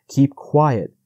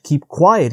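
First: Said in the usual way. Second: Higher, louder hushing reproach; sharp but kind hush to the hare; cried reproach. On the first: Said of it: "reproaching him gently". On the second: A narrator's reading. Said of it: "he cried, reproaching him gently".

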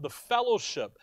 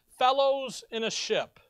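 First: Said in the usual way. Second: "fellows in a ship" slow and higher, split into separate words; word broken apart. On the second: Shown as a demonstration. Preacher explains the word fellowship, "fellows in a ship" said slowly in parts. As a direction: stretch "fellows", then set "in a ship" apart. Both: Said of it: "If you think about the fellowship".

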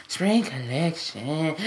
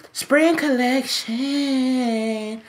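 First: Slower, much softer and lower repeat; soft echo. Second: Stretched very slow and higher, sing-song; drawn-out plug. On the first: Repeating the merch line to viewers, soft and low. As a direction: let it fall away like an echo. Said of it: "echoed merch plug". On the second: Hawking his spring merch to viewers, slow and higher. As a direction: draw the words out like a jingle. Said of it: "drawn-out merch plug". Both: Pretend.

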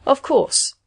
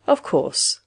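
First: Higher, firmer recovery; stronger voice. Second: Low, soothing machine reassurance. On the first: Machine recovers from confusion, stronger voice. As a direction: regain confidence, pitched up. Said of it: "it went on in a stronger voice". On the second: Machine calms an embarrassed patient, soothing. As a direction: reassure in a lowered voice. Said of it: "the machine said soothingly". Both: A narrator's reading.

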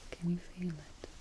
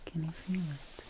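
Both takes have the same delivery.

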